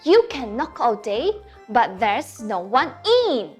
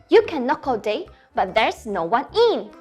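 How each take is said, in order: First: It is recited at a slower pace. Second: It is recited at a fast pace.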